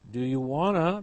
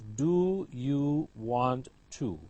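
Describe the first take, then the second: First: The last words are run together as one. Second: Each word is said fully and separately. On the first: "reduced form" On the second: "full form"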